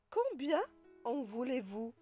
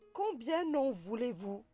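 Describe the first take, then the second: First: No n sound links combien to en. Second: An n sound links combien to en. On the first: The speaker calls it right. "on dit" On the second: The speaker calls it wrong. "On ne dit pas"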